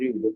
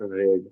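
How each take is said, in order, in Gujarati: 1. સ્વર લાંબા ee અવાજ જેવો છે. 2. સ્વર ટૂંકા e અવાજ જેવો છે. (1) "મૂળરૂપ તરીકે એનો ઉપયોગ કરીએ ત્યારે ઉચ્ચારણ થાય છે રીડ" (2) "ભૂતકાળમાં પણ રેડ"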